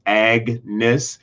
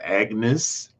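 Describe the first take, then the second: First: "Agnes" broken into Ag and nes; split into syllables. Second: Said in the usual way. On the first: Shown as a demonstration. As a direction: say "Agnes" in two separate pieces, Ag, then nes. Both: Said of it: "You think about it".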